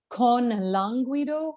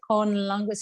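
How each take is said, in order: First: A small extra vowel follows the N. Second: The N runs straight into the next word. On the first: The speaker calls it wrong. "You gave me a little shadow vowel after that N" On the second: The speaker calls it right. "the tongue comes up for the N, and then you continue into"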